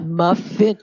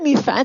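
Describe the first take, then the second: First: It is said with English vowels, like muffin. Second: It is said with French-like vowels, like mi faim. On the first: The speaker calls it right. "it's a muffin" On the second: The speaker calls it wrong. "It's not a mi faim"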